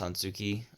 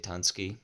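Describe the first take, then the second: First: A vowel is sounded between the s and k. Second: The vowel between the s and k is dropped. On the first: "even if it's Tansuki" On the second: "I kind of abbreviate the U and the K"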